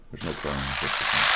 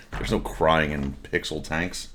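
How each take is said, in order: First: Said in the usual way. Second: Slow, leaning on "no"; "no" stressed, slow. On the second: Shown as a demonstration. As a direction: slowly insist "no crying". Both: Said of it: "Take two".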